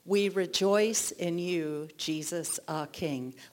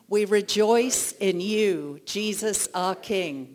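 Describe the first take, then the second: First: It is said at normal volume. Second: It is said loudly.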